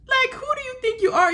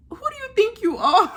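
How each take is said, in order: First: Much higher, outraged disbelief; incredulous. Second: Half-laughing jab at an overconfident guy; laughing disbelief. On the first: Vlogger repeating it to Davide, high incredulous. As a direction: push the question up high, can't believe him. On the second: Vlogger to Davide, laughing in disbelief. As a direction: laugh through the question. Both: Real, not acted.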